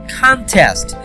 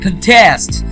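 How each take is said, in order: First: The stress is on the first syllable. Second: The stress is on the second syllable. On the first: It is a noun meaning a competition. "I'm actually not that much giving stress on test" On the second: It is a verb meaning to oppose or compete. "we are giving the stress on test"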